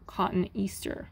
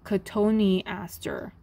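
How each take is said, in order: First: The vowels run together into fewer syllables. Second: Each vowel is sounded as its own syllable. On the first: The speaker calls it wrong. "not cotton easter" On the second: The speaker calls it right. "you pronounce every syllable"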